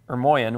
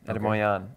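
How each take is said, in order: First: The name is said with a Western pronunciation. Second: The name is said with an Armenian pronunciation. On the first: "in the West, that's how we say it" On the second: "They would say Ermoian"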